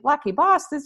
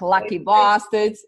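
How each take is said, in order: First: It is said in an Australian accent. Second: It is said in the speaker's usual accent.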